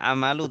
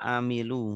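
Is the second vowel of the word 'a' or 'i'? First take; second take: a; i. First: The second vowel is an 'a' sound. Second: The second vowel is an 'i' sound. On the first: The speaker calls it wrong. "Tidak amalu" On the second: The speaker calls it right. "tapi amilu"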